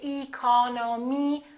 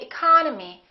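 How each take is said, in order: First: The unstressed vowels keep their full sound. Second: The unstressed vowels are reduced to uh. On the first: The speaker calls it wrong. "We don't say economy" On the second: The speaker calls it right. "The second syllable is stressed, therefore this E and this O are reduced"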